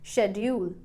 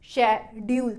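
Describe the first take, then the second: First: The stress is on the first syllable. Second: Both syllables are said flat, like a robot. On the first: "मैं शेड वाले part को stress के साथ बोलूंगी" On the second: "आप robot की तरह बोले"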